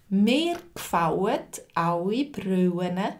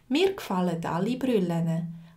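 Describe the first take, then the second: First: The L in alle sounds like a vowel. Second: The L in alle is a clear L. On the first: "in meinem Dialekt ... die haben so ein vokalisiertes L" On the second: "Auf Zürichdeutsch würde ich zum Beispiel sagen"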